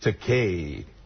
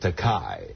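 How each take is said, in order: First: The last syllable rhymes with toupee. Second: The last syllable does not rhyme with toupee. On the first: The speaker calls it right. "just like your toupee. Rhymes with toupee" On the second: The speaker calls it wrong. "he kept pronouncing it Takai"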